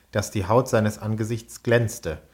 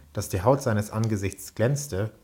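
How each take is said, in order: Both takes have the same delivery.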